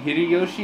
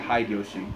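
First: The name is pronounced the standard Japanese way. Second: The name is pronounced in an anglicized way. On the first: The speaker calls it right. "instead of saying Hideyoshi" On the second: The speaker calls it wrong. "they say Hideyoshi"

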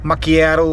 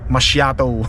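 First: The word is said with the pronunciation commenters taught. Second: The word is said with the speaker's former pronunciation. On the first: The speaker calls it right. "Macchiato pala tong pronunciation" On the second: The speaker calls it wrong. "Dati tawag ko yata doon"

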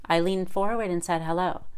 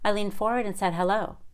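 Both takes have the same delivery.

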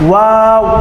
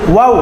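First: The word is said slowly and fully. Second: The word is said in a hurry. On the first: The speaker calls it right. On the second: The speaker calls it wrong.

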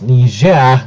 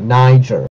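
First: The word is said in a non-American way. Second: The word is said the usual American way. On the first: The speaker calls it right. "It's Niger" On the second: The speaker calls it wrong. "generic American pronunciation mistake"

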